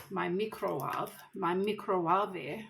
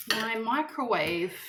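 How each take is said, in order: First: Lightly imitating Nigella Lawson, microwave said as "mee-crow-wahv"; Nigella Lawson impression. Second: Said in the usual way. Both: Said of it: "Did you hear Nigella Lawson say that before?".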